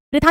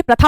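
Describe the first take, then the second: First: प्रथा said "pritha", with 'i' after pr; higher "PRI-tha" for प्रथा; wrong pronunciation. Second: प्रथा said "pratha", with short 'a'; correct pronunciation. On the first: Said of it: "प्रथा नहीं होता". (प्रथा को 'प्रिथा' बोलना) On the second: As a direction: say प्रथा as "PRA-tha". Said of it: "प्रथा होती है". (प्रथा में 'प्र' पर छोटा अ) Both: Shown as a demonstration.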